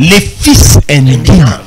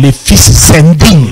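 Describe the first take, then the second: First: The words are said without an added liaison. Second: A liaison sound links fils to indignes.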